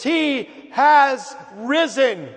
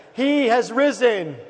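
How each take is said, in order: First: Loud, high, very slow emphatic proclamation; really meaning it. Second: Raised, slow congregational call; Easter proclamation. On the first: Pastor showing the congregation how to really mean it, emphatic proclamation. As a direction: proclaim it full out, each word drawn out. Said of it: "say it like you really mean it". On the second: Pastor trying again with the eleven o'clock crowd, raised proclamation. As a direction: call it out to draw a response. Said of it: "So let's try again". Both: Shown as a demonstration.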